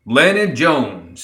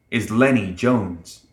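First: Slow, raised proud cry; higher, stretched exclamation. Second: Said in the usual way. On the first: A narrator's reading. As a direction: draw the name out proudly. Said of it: "Summer cried".

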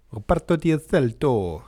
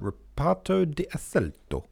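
First: Louder, rolling Italian accent on Reparto di Assalto; full Italian accent on Reparto di Assalto, said louder. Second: Said in the usual way. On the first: Shown as a demonstration. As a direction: say it like a proud Italian. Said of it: "I can do that accent because I'm half Italian". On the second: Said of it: "I can do that accent".

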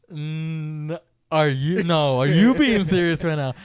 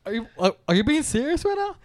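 First: Loud, slow question thrown back; incredulous comeback. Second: Higher, louder stammering disbelief; incredulous sister. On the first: Brother turning his sister's question back on her, incredulous. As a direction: push it back at her with stress on YOU. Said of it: "And I was like". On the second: Brother imitating his sister doubting he is serious, incredulous. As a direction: stumble into an astonished question. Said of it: "And then she went". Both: Retold or imitated.

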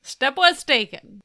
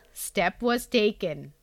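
First: Echoing it louder in disbelief; disbelieving echo; incredulous echo. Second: Indian English accent. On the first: Retold or imitated. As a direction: repeat it back, stunned and loud. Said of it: "echoes the line". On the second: Shown as a demonstration. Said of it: "Indian English accent".

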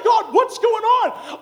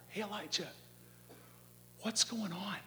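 First: High, loud, stretched-out cry; frustrated shout. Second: Soft, uncondemning check-in; gentle fatherly question. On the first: Worn conference host complains to God, frustrated high shout. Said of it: "Sometimes you feel like". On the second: God as a father checks on Elijah, gentle fatherly question. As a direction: ask softly, as a caring father. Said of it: "It's a question of a father". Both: Acted.

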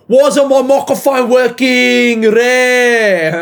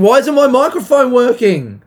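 First: Put-on loud, high Greek-accented yell; hammed-up Greek voice, bellowing in outrage; put-on Greek accent, stretching the last words. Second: High, loud annoyed outburst; exasperated. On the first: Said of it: "Greek voice is coming out". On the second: Real, not acted. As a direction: complain loudly, pitch shooting up. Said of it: "it's so annoying".

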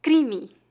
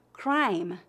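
First: "Crime" as CREE-mee, two syllables; Portuguese pronunciation. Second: "crime" in English, one syllable; English pronunciation. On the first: Teacher answering how it is said in Portuguese, Portuguese pronunciation. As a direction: say "Crime" in Portuguese, tapped R, weak final I. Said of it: "a vogal E no final é pronunciada". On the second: Teacher asking for the Portuguese of an English word, English pronunciation. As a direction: say "crime" rhyming with time. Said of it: "Como se pronuncia a palavra". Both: Shown as a demonstration.

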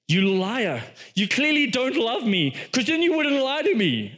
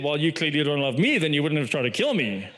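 First: Higher-pitched, lightly acted reproach; mock accusation. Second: Lower-pitched mock comeback; imagined retort. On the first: Delilah turns it back on Samson, mock wounded accusation. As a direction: imitate a manipulator turning the blame. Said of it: "she manipulates the entire thing and she turns it right back on him and she says". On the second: What Samson should have said to Delilah, mock retort. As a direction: throw the accusation back in a lower voice. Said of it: "he should have said".

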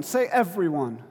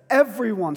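First: Said in the usual way. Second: "everyone" hit loud with a falling close; stressed word. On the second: Shown as a demonstration. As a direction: land hard on "everyone".

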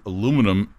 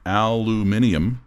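First: Said in the usual way. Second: "aluminium" as al-yoo-MIN-ee-um; British aluminium. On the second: Shown as a demonstration. Reader relaying what the Brits call it, "aluminium" as al-yoo-MIN-ee-um. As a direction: give "aluminium" all its syllables, stressed on MIN. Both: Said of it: "The Brits call aluminum aluminium".

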